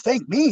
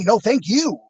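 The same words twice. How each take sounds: First: "me" pitched up in disbelief; incredulous question. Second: "you" as the emphatic contrast to "me"; emphatic return of thanks. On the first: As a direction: stress on "me", high and questioning. Disbelieving retort to being thanked. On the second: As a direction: stress on "you", pitched up. Turns the thanks back around. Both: Retold or imitated.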